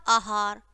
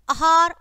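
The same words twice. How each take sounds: First: आहार said "aahaar", long first "aa"; correct long vowel. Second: आहार said "ahaar", short first "a"; wrong short vowel. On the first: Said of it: "और फिर शुद्ध है". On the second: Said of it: "पहले हमारी अशुद्ध शब्द है". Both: Shown as a demonstration.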